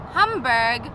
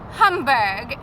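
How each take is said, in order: No difference in how they are said.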